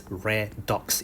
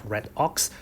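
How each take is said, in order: First: "redox" said re-dox, as one word; joined pronunciation. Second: "red ox" as two words, red then ox; split pronunciation. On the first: Teacher correcting students' pronunciation, "redox" joined as re-dox. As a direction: move the d onto the second syllable of "redox". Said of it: "you pronounce it as redox instead of". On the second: Teacher showing what to avoid, "red ox" split. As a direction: close "red" before starting "ox". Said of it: "instead of red ox". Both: Shown as a demonstration.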